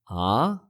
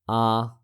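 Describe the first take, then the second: First: The pitch rises from low to high. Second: The pitch stays level throughout.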